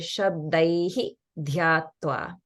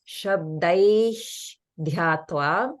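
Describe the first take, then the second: First: The first word ends with an added hi syllable. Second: The first word ends with a breathy h sound. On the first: "or you can say" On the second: "You can pronounce it kind of like"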